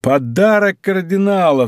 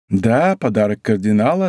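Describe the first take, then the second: First: Higher, drawn-out amused exclamation, no real laugh. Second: Said in the usual way. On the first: A narrator's reading. D'Artagnan learns whose money it is, amused cry. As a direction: cry it out slowly in delight. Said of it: "разражаясь смехом". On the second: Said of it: "ответила госпожа Бонасье".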